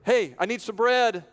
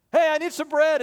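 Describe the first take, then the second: First: Raised voice calling at the door; calling out for bread. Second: Much higher, loud "Hey" up front; desperate call. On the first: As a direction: call up to the window for bread. Friend knocking for bread at night. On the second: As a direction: cry out for bread urgently. Friend calls out desperately. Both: Acted.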